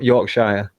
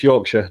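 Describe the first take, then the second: First: The last syllable sounds like a full 'shire'. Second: The last syllable is short and reduced. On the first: The speaker calls it wrong. "not Yorkshire ... it sounded a bit Shirish" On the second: The speaker calls it right. "it's Yorkshire"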